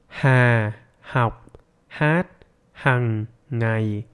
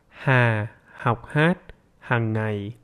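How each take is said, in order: First: It is spoken very slowly, word by word. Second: It is spoken slowly, somewhat faster than before.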